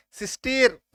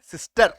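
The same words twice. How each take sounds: First: सिस्टेर ending "-tayr"; wrong vowel. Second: सिस्टर ending "-tuhr"; uh sound. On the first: Teacher demonstrating the mistaken reading, सिस्टेर with ए. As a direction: give सिस्टेर a long ए sound. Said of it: "ई का sound ए होता है". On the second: Teacher giving the correct word, सिस्टर with अ. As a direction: say सिस्टर with a short अ before r. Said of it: "अ हो रहा है". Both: Shown as a demonstration.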